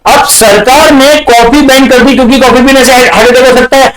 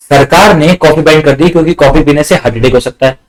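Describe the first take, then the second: First: High, sustained one-note rush; hammed-up high-pitched recital; mock excited repeat. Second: Said in the usual way. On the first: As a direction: rattle it off in a high-pitched chant. Same problem repeated as excited reaction.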